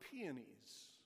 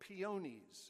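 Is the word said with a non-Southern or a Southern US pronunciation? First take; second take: non-Southern; Southern. First: The word has a general, non-Southern pronunciation. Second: The word has a Southern US regional pronunciation.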